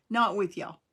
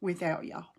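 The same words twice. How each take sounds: First: "Not" hit louder to correct herself; stress on NOT. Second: Said in the usual way. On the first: Real, not acted. Correcting herself to viewers, punching "Not". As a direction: lean hard on "Not", fixing the slip.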